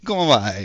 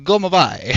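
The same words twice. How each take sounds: First: It is said in an exaggerated Italian accent. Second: The same.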